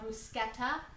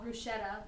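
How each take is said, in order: First: The middle consonant is a hard K sound. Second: The middle consonant is a ch sound. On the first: The speaker calls it right. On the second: The speaker calls it wrong.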